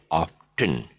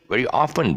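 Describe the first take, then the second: First: "often" as OFF-ten; two clear parts in "often": off-ten; T sounded. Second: "often" as OFF-en; silent T. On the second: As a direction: say "often" with the T dropped. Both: Shown as a demonstration. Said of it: "this mistake by saying often".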